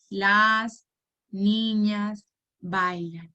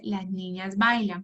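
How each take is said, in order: First: Counting the words. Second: Said in the usual way. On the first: Shown as a demonstration. Teacher counts the words aloud for the child, slowly one by one. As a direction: count each word out slowly and separately. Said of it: "vamos a contar". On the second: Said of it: "Tenemos la frase".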